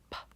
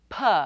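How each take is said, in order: First: A quiet p with no vowel after it. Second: A p followed by an added uh vowel. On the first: The speaker calls it right. "P is unvoiced, so it is quiet" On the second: The speaker calls it wrong. "we might add the uh sound, as in p, which is really two sounds"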